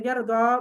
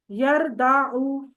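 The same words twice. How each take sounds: First: یردا said crisply, ending on a long a; the correct form. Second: یردعو drawn out very slowly, syllable by syllable; the original form. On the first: Teacher showing students the form Arabs actually use, crisp. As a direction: give یردا with a clear final alif sound. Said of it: "انہوں نے کہا یہ یردا صحیح ہے". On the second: Teacher to Arabic class showing the expected form, very slow. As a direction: stretch out یردعو as the form it should have been. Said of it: "تو یہ کیا ہونا چاہیے تھا؟". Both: Shown as a demonstration.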